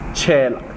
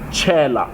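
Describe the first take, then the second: First: The stress is on the last syllable. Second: The stress is on the first syllable. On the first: It is a verb meaning to pour. "you put more emphasis on the la at the end" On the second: It is a noun meaning a frog. "you put more emphasis on the che because it's a it's a it's a noun"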